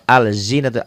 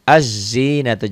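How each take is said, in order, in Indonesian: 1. L jelas dilafalkan sebelum Z. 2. L menyatu menjadi bunyi Z yang dobel. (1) "jangan al, l-nya enggak dibaca" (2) "bacanya dari a ke zai"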